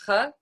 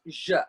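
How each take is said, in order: First: The consonant is a breathy h sound. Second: The consonant is a soft j sound. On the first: The speaker calls it wrong. "it's not H" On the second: The speaker calls it right. "it's J"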